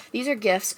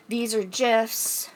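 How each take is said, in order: First: "gifs" with a hard g, as in "gift". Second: "gifs" with a soft g, like "jifs". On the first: Restating it for the slides, "gifs" with a hard g. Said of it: "I say gifs". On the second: Showing coworkers the trivia slides, "gifs" with a soft g. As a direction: say "gifs" starting with a j sound. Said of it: "I don't know why I said gifs". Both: Real, not acted.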